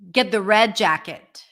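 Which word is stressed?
red. The main stress falls on red. The red one, not the blue one, is wanted. "One is red, one is blue. You need to get the red"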